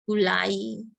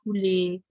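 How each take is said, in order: First: The word ends in an 'ai' sound. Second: The word ends in an 'e' sound. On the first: The speaker calls it right. "itu pakai A I. Gulai, satai, cabai, itu yang benar" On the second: The speaker calls it wrong. "yang satunya gule"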